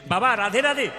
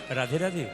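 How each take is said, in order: First: It is said loudly. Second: It is said very softly.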